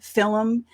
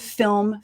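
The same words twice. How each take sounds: First: It is said in an old-fashioned way. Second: It is said in today's usual way. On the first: "they would pronounce words a little bit differently" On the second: "instead of"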